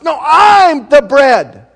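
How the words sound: It is said with frustration.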